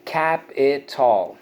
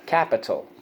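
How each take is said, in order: First: Slow CAP-IH-TALL for "Capital"; syllable by syllable. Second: Said in the usual way. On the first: Shown as a demonstration. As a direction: stretch "Capital" into three full beats ending like tall. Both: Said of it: "so let's go".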